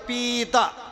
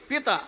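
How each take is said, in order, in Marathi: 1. पहिला स्वर दीर्घ आहे, ओढून लांब म्हटला जातो. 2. पहिला स्वर ह्रस्व आहे, पटकन म्हटला जातो. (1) "आणि तो जर दीर्घ केला पिता" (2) "पी जर ऱ्हस्व वापरला, ऱ्हस्व शब्द जरा लवकर म्हणायचा आहे"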